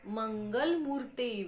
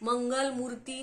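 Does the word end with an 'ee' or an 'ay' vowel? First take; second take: ay; ee. First: The word ends with an 'ay' vowel. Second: The word ends with a long 'ee' vowel. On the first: The speaker calls it right. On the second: The speaker calls it wrong.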